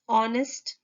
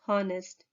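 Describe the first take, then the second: First: The word begins with a vowel sound. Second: The word begins with an h sound. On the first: The speaker calls it right. "we use O, honest" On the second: The speaker calls it wrong. "not her, honest"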